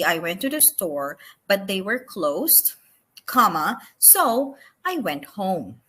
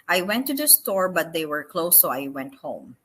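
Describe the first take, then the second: First: It is read with small pauses between clauses. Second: It is read straight through without breaks.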